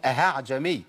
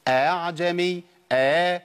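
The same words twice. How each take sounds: First: أهعجمي with a breathed h inside the opening; slower أهعجمي with an audible h; mistaken h sound. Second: أعجمي with the second hamza halfway to an alif; softened second hamza. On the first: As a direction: put a wrong h in place of the softened hamza, a-ha'jami. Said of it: "بعض الناس بيقولها خطأ". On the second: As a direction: glide smoothly through the opening a-a of أعجمي, no h. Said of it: "أخلي الهمزة بين الهمزة والألف". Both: Shown as a demonstration.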